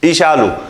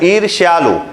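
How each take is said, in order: First: The middle consonant cluster is simplified to 'sh'. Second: The middle consonant cluster 'rshy' is fully pronounced. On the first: The speaker calls it wrong. "बहुत लोग पढ़ते ईशालु ईशालु" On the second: The speaker calls it right. "सही उच्चारण करेंगे"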